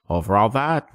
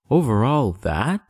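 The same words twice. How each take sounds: First: Said in the usual way. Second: Slow, wondering rising question; amazed question. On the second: Acted. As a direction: marvel at the whole sky. Prince asks in wonder.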